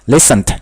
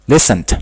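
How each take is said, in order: No difference in how they are said.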